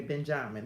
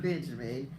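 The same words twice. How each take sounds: First: Benjamin as ben-JAH-min; island pronunciation. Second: Said in the usual way. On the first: Shown as a demonstration. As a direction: open "jah" in the middle of Benjamin. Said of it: "That's how they say it over there". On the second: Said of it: "It's not Benjamin".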